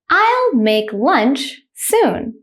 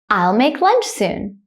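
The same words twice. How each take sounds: First: The sentence is said slowly. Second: The sentence is said quickly. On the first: "The first time I will say it slowly" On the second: "the second time I will say it quickly, like a native speaker"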